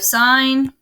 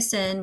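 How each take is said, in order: First: The vowel is long, like in 'fine'. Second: The vowel is short, like in 'fin'. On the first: The speaker calls it right. "so we have sine" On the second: The speaker calls it wrong. "which you guys try to say sin, but it's not sin"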